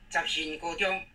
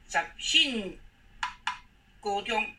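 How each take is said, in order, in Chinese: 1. 第二个音节不是第四声。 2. 第二个音节是第四声。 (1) "这是错误的" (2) "这个信信字要念第四声"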